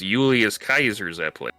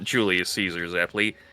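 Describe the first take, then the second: First: Caesar begins with a hard k sound. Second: Caesar begins with a soft s sound. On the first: The speaker calls it right. "they go for that old Latin pronunciation too" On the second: The speaker calls it wrong. "It's not"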